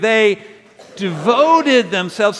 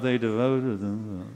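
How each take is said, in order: First: The phrase is said loudly and with strong energy. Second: The phrase is mumbled quietly with little energy. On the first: The speaker is truly committed. The speaker calls it right. "say devoted like you're devoted. Do that one time with me" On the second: The speaker is not really committed. The speaker calls it wrong. "nobody mumbles devoted. Well"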